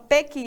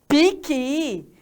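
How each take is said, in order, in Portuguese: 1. A primeira vogal soa como 'eh'. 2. A primeira vogal soa como 'ee'. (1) "tem gente que lá do Sul fala pequi" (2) "aqui, piqui"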